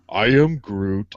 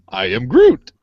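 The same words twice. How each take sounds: First: It is said in a sad tone. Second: It is said in a happy tone. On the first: The speaker is sad. "That's sad" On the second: The speaker is happy. "He's happy"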